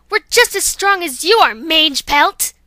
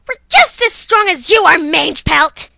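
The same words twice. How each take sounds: First: Defiant shout. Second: Louder, higher, strained defiance; the stronger take of the challenge; defiant shout. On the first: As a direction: throw Mange Pelt out like a name. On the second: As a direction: spit out Mange Pelt as a proper name. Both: Acted. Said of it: "I'm saying Mange Pelt like it's a name".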